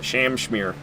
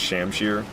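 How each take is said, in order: First: The word ends with an added 'm' sound, 'shmere'. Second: The word ends plainly with 'shir', no added sound. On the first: The speaker calls it wrong. "it's fun to say Shamshmere" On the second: The speaker calls it right. "I know it's Shamshir"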